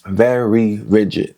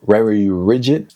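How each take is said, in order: First: "very rigid" drawn out slowly, each word separated; careful enunciation. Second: "very rigid" said slowly, tripping over the r sounds; tongue-tied attempt. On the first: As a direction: stretch "very" and then place "rigid" with care. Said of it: "can't say very and rigid". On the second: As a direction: stumble carefully through "very rigid" in a New York accent. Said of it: "That's my New York accent". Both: Real, not acted.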